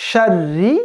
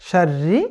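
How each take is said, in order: No difference in how they are said.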